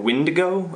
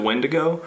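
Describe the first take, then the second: First: The first vowel sounds like the i in bid. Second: The first vowel sounds like the e in bed. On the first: "people then might say it more Windigo" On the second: "as opposed to Wendigo"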